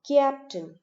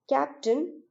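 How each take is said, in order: First: A y sound follows the first consonant. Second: The vowel follows the first consonant directly. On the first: The speaker calls it wrong. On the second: The speaker calls it right.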